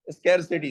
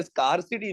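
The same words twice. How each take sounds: First: स्कैरसिटी starting like "scare"; fronted "skair" in स्कैरसिटी; correct "skair" pronunciation. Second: स्कार्सिटी starting like "scar"; wrong "skar" pronunciation. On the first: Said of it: "स्कैरसिटी होता है". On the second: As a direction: open "ah" in स्कार्सिटी. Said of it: "स्कार्सिटी नहीं होता". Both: Shown as a demonstration.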